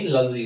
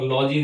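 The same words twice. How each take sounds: First: लॉजी reduced to "luh-jee", with a schwa; correct pronunciation. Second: लॉजी with an open "aw": "law-jee"; wrong pronunciation. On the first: Teacher correcting the word ending, लॉजी said as a short "luh-jee". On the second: Teacher rejecting what some people say, लॉजी as "law-jee". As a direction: stretch the first vowel of लॉजी to "law". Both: Shown as a demonstration. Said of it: "पर लॉजी नहीं".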